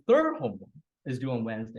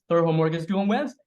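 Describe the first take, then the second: First: The stress falls on the word third. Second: The stress falls on the word Wednesday. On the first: It is the third homework, not another one. "with the sentence stress on third" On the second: It is due Wednesday, not another day. "The stress shift from third to Wednesday"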